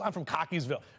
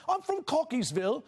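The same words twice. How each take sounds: First: It is said in a plain local accent. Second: It is said in a British accent. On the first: The speaker calls it wrong. "more better than just" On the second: The speaker calls it right. "have a British accent when you say"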